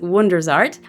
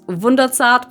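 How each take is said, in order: First: The name is pronounced the English way. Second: The name is pronounced the German way. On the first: "most of y'all listening are English speaking, so let's pronounce it Wundersart" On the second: "which is actually German. It's Wunderzart"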